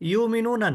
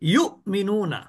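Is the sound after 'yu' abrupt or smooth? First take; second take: smooth; abrupt. First: The middle sound flows smoothly with no catch. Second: The middle sound is cut with a sharp catch. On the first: The speaker calls it wrong. "অনেকে বলে কি ... ইউমিনুনা না" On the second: The speaker calls it right. "একটু ধাক্কা দিয়ে উচ্চারিত হবে"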